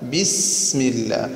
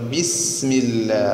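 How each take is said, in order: The two takes are said the same way.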